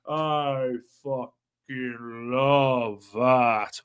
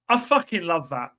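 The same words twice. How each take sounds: First: It is said very slowly. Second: It is said at a normal speed.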